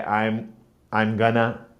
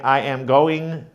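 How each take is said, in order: First: "I'm gonna" run together, going to shrunk to gonna; reduced casual speech. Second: "I am going" with every word said in full; full unreduced form. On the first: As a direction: let it slur into a relaxed "I'm gonna". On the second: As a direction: say "I am going" as separate, complete words. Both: Shown as a demonstration. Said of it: "how you reduce the speech".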